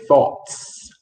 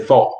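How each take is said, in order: First: "thoughts" ending in a clearly audible "ts"; final s pronounced. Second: "thought" cut off with no s at the end; final s dropped. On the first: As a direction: finish "thoughts" with a hissed s after the t. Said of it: "You have to say thoughts". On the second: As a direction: end "thought" on the t, no hiss after it. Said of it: "You just can't say thought". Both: Shown as a demonstration.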